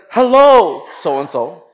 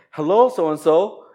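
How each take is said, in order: First: "Hello" sung out high and loud; loud greeting. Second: Said in the usual way. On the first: Retold or imitated. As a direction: call out a cheerful hello over the crowd. Taps person, greets loudly.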